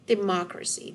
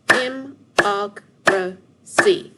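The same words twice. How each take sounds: First: Said in the usual way. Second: "Dem-oc-ra-cy" in four loud, separate, slow beats; split into syllables. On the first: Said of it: "What word?". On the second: Shown as a demonstration. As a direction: punch out each syllable of "Dem-oc-ra-cy", pausing between them. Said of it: "Let's see how many syllables".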